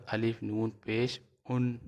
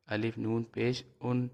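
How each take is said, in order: Both takes have the same delivery.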